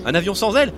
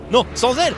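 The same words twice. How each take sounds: First: Said in the usual way. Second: "ailes" said loud and high; stress on ailes. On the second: Shown as a demonstration. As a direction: punch the word "ailes".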